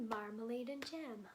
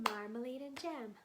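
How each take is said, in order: Both takes have the same delivery.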